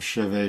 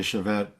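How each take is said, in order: First: Chevet as shuh-VAY, silent T; French pronunciation. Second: Chevet as shuh-VET, final T sounded; pronounced with T. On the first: Recounting research into the word, French-style chevet with silent T. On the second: Recounting research into the word, chevet with a sounded final T. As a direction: say chevet ending like -ette. Contrasting the two pronunciations. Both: Shown as a demonstration.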